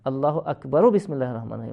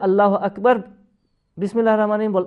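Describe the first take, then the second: First: Akbar ends in a vowel linking into Bismillah. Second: Akbar ends in a consonant before Bismillah. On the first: The speaker calls it right. "আল্লাহ আকবরও বিসমিল্লাহ রহমান রহিম বলতে হবে" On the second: The speaker calls it wrong. "যদি না থামতে হয় তাহলে আল্লাহ আকবর বিসমিল্লাহ রহমান রহিম বললে চলবে না"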